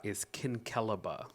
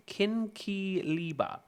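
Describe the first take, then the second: First: Kinkeliba as KIN-kuh-luh-buh, stress on the first syllable; correct pronunciation. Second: Kinkiliba said slowly, stress on li, kin-ki-LI-ba; slow careful try. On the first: Announcing the right way to viewers, firm and settled. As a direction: say Kinkeliba with the stress on KIN, the middle vowels weak. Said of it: "I figured it out". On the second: Trying out a strange word for viewers, slow and careful. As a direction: sound out Kinkiliba slowly, syllable by syllable. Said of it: "I'm finna pronounce this". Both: Shown as a demonstration.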